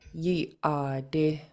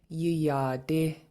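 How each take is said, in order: First: The air stops in the throat before the vowel. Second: The word flows without a catch in the throat. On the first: The speaker calls it right. "you're stopping the air" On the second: The speaker calls it wrong. "If it wasn't there, then this word would sound like"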